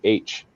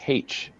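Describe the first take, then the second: First: The letter name begins with a vowel sound. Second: The letter name begins with an h sound. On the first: This is how Americans say it. "in America, it's A B C D E F G H. You know, you pronounce it with, it with the A" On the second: This is how British speakers say it. "they always pronounce it as H"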